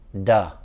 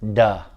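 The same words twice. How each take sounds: First: It starts with a hard d sound. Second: It starts with a hard d sound.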